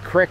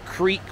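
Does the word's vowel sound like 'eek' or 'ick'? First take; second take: ick; eek. First: The vowel is a short 'ih' sound. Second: The vowel is a long 'ee' sound. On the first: This is the local Philadelphia pronunciation. "in Philadelphia, we say crick" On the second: This is the usual pronunciation elsewhere. "we don't say creek"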